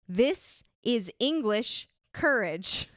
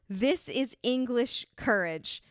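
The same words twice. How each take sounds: First: It is said in a heightened American accent. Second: It is said in the speaker's ordinary accent. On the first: "But he says it in this way" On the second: "I wrote it down"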